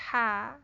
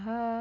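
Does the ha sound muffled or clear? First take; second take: clear; muffled. First: The ha sounds clear, mouth opened wider. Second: The ha sounds muffled, mouth barely opened. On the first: The speaker calls it right. "kalau agak dibuka, ha, e, lebih bersih jadinya" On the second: The speaker calls it wrong. "Kalau nggak dibuka, dia bunyinya jadi ha"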